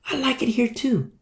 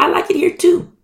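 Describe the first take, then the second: First: Higher and softer reply; soft agreement. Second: Much higher, full voice; bright agreement. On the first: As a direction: agree gently, half under the breath. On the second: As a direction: answer up high, delighted. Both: Retold or imitated. Fellow servant voiced in parable.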